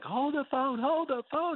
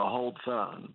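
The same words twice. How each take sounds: First: High-pitched imitation of dad hollering; mock holler. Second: Said in the usual way. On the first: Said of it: "he was shouting it". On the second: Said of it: "I hear my dad go".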